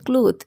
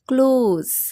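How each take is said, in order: First: The word ends with a th sound. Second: The word ends with a z sound. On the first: The speaker calls it wrong. "But it's not true" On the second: The speaker calls it right. "এটা হবে ক্লোজ"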